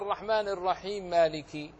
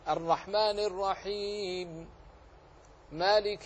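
First: Run together without pause, one m sound dropped. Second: A pause after the first phrase, final m unvoweled. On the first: The speaker calls it wrong. "ليس بواصل ولا بواقف فخطأ، ينتج منه إسقاط إحدى الميمين" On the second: The speaker calls it right. "وإن وقفت فسكنت لأجل العارض للوقف"

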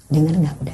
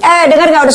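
First: The voice is soft, low and gentle. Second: The voice is loud, high and harsh. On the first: The speaker calls it right. "turunkan frekuensi" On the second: The speaker calls it wrong. "Jangan begini"

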